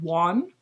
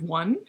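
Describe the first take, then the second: First: The word is pronounced in an unusual way. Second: The word is pronounced in the ordinary way. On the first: The speaker calls it wrong. "he said one" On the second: The speaker calls it right. "instead of one"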